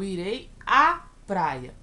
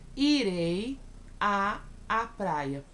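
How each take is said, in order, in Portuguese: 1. Antes de praia, pronuncia-se um a só, fundido. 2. Antes de praia, pronunciam-se dois a separados. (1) "Eu pronuncio um A só" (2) "Eu não falo assim"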